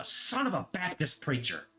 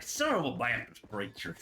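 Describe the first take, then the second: First: Higher, exclaimed substitute swear; mock swearing. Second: Lightly imitated Southern accent. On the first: Quoting the old friend group's favorite swear, mock exclamation. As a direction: blurt it like a sudden curse. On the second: Quoting a friend's substitute swear, imitated Southern accent. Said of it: "real strong kind of Southern accent".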